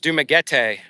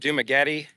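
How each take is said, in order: First: It is said with a local Filipino accent. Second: It is said with an American English accent. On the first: The speaker calls it right. "when I was corrected" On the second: The speaker calls it wrong. "using my mm, English accent, where I before would say"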